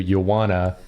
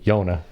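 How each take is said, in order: First: The words are partly blended into a shorter form. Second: The whole phrase is squeezed into two syllables.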